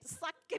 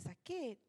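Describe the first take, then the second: First: It is said heavily and intensely. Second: It is said lightly and casually. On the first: It conveys how very painful it really is. The speaker calls it right. "Ustazah akan berusaha menggambarkan biar dia boleh nampak" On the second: It sounds as if it does not really hurt. The speaker calls it wrong. "Itu macam tak sakit"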